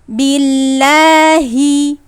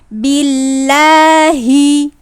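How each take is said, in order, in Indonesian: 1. Bunyi h-nya penuh, dari pangkal tenggorokan. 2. Bunyi h-nya penuh, dari pangkal tenggorokan.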